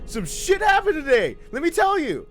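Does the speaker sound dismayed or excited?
excited. It is said in an excited, upbeat way. Something good happened.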